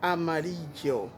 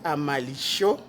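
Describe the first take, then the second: First: It is said with a non-Argentine pronunciation. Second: It is said with an Argentine pronunciation. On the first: "il y a l'autre monde qui dit amarillo" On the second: "Argentin, ils prononcent li amalicho"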